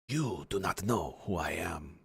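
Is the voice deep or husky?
husky. A husky, more feminine voice.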